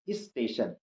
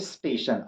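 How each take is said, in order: First: An 'i' vowel comes before the s. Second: The word starts directly with the s sound. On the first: The speaker calls it wrong. "ई लगा देते हैं पहले" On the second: The speaker calls it right. "स स का उच्चारण करें"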